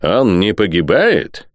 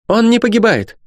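First: Slow questioning echo of "погибает"; doubting question. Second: Very high, emphatic statement; loud, sharp denial. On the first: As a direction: draw out "погибает" slowly as a sceptical question. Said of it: "подняв бровь". (медленно, с сомнением переспрашивая «погибает») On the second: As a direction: declare it sharply, voice pitched far up. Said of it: "громко и резко перебила". (резко и высоко, утверждая) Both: A narrator's reading.

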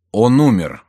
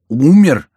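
First: Said in the usual way. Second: Loud, high burst of astonishment; shocked cry. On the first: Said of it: "отвечал Антраге". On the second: A narrator's reading. Миньоны echo the news of Бюсси's death, shocked cry. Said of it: "вскричали миньоны".

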